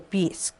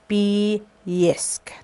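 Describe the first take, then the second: First: Sounds inside the word are collapsed together. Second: Every sound of the word is said fully. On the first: "they collapse a lot of the sound system between" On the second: "they don't pronounce like Bisk"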